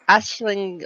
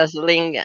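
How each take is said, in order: First: The first syllable sounds like 'ash'. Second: The first syllable sounds like 'aisle'. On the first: "Ashling would be correct" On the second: "like walking down the wedding aisle"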